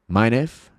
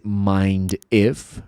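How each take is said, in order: First: The words are run together with sounds reduced. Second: Each word is said fully with every sound clear. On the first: "você vai ouvir assim" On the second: "Em vez de mind if"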